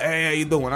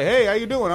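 First: Put-on greeting back in an East Coast accent; lightly mocked East Coast reply at normal pitch. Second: Higher, lightly imitated passing coworker greeting; upbeat retold hello, pitched up; coworker's greeting. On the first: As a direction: imitate yourself slipping into East Coast talk. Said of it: "you fucking East Coast motherfucker". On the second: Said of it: "someone in the factory and they're like".

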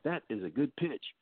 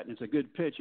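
First: Quietly pleased with himself, "That is a good pitch" said as self-admiration; a hint of smug surprise at his own pitch; smug inner voice. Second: Said in the usual way. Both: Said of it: "You're like".

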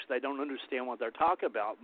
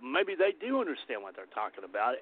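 First: Said in the usual way. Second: "do" lifted in pitch as the key word; stress on DO. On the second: Real, not acted. Rebutting academics who dismissed Native views, stress on "do". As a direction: lean on "do" to contradict. Counters the academics' view just quoted.

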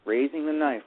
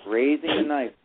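No difference in how they are said.

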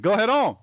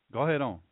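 First: High, loud, hearty egging on. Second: Said in the usual way. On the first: Retold or imitated. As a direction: imitate friends cheering you on, louder and higher. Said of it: "They said".

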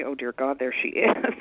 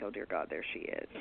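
First: The dreading thought replayed aloud for laughs; voiced-out inner groan, breaking into a laugh after; mock dread. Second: Low, hushed private thought; dreading aside under the breath; inward dread. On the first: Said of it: "I don't wanna have that thought about somebody". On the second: Retold or imitated. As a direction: think it to yourself, very low and quiet. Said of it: "I would think".

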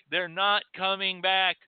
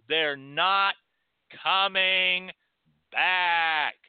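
First: Said in the usual way. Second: They're not, pause, coming, pause, back, said louder; each word separated. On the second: Shown as a demonstration. Speaker to listeners: every word of back punched apart.

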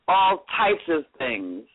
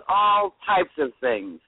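Both takes have the same delivery.

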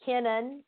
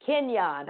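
First: Kenan said KIN-un, with a questioning rise; tentative name reading. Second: Kenyon as kin-YAHN, with a settled fall; corrected pronunciation. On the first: Real, not acted. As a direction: say Kenan unsurely, second syllable a weak "nun". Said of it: "how do you pronounce his son's name". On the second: Shown as a demonstration. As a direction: repeat Kenyon with the y glide and open "ahn". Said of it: "It's pronounced".

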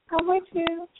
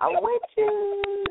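First: Said in the usual way. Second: High drawn-out. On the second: Acted. Repeated line, first take higher.

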